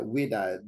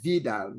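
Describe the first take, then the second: First: The word begins with a W sound. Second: The word begins with a V sound. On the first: The speaker calls it wrong. "people talk about uh" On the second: The speaker calls it right. "but the pronunciation is V"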